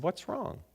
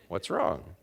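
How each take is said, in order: First: Higher, softer question rising at the end; gentle inquiry. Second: Low-pitched question falling on WRONG; knowing repeat question. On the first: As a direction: lift WRONG in a quiet, open question. Companion asks, concerned, in retold dialogue. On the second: Companion presses after evasive answer. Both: Retold or imitated.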